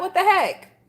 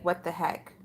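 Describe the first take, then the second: First: Higher, incredulous exclamation; pitched-up what the heck; exasperated. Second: Muttered under the breath, much softer; hushed, stunned aside; quiet what the heck. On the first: Real, not acted. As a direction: throw it out in disbelief. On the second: Retold or imitated. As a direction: say it low to yourself in disbelief. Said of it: "I'm like".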